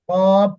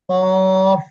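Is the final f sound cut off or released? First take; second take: cut off; released. First: The mouth closes and the final f is cut off. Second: The final f sound is clearly released. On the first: The speaker calls it wrong. "কফ এভাবে বন্ধ করা যাবে না।" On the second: The speaker calls it right. "শেষে ফা, খেয়াল রাখবেন।"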